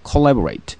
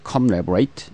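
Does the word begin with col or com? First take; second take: col; com. First: The first syllable ends in an l sound. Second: The first syllable ends in an m sound. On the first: The speaker calls it right. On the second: The speaker calls it wrong.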